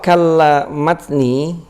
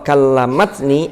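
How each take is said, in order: First: The word break falls after kalla. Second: The word break falls after kallamat. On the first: My back has become weak. "ai dha'ufat quwwati" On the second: She spoke to me. "ai kallamat hiya kallamat ni"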